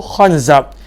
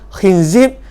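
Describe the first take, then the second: First: Both syllables have the vowel a. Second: Both syllables have the vowel i. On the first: "baris atas" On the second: "kha dan zai baris bawah"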